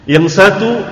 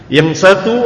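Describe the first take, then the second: No difference in how they are said.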